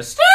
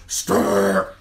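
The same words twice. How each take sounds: First: Tiny shrill "Stuart" yelp; high-pitched squawk. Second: Loud drawn-out growl of the name; henchman's call. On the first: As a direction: squeal it like the little henchmen. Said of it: "they're high-pitched Stuart". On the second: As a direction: imitate the second in command's rough yell. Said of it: "the second in command". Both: Retold or imitated.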